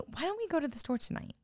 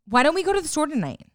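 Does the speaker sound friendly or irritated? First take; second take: friendly; irritated. First: The voice sounds light and friendly. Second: The voice sounds short and irritated. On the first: It is a kind request. The speaker calls it right. "you could just ask like, hey" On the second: It sounds like a command. The speaker calls it wrong. "it's like you're irritated. You're short"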